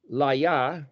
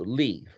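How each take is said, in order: First: The word is said with two syllables. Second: The word is said with one syllable. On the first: "You could pronounce it, I suppose" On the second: "but generally it's L Y or L I, so"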